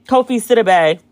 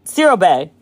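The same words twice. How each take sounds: First: Siriboe ending in bay; full name Siriboe. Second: Siriboe lower and firmer, ro-bay; Siriboe again. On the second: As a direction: correct yourself on Siriboe. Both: Shown as a demonstration. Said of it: "It might not even be Bay".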